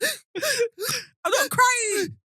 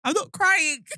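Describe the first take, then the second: First: Very slow, high, wailing sob-laugh; hammed-up crying through the words; mock crying. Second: Said in the usual way. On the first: To her co-host, a hammed-up tearful denial.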